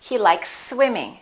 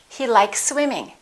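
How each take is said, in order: Both takes have the same delivery.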